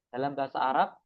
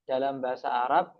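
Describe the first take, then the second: No difference in how they are said.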